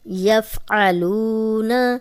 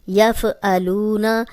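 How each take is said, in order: First: The f is held still and the throat sound is 'ayn. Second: The f is bounced and the throat sound is a glottal stop. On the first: The speaker calls it right. "आइन है" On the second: The speaker calls it wrong. "यहाँ पे हम इसको ऐसे नहीं पढ़ सकते, ... एक तो फा हिल गया, दूसरा ये हमजा बन गया"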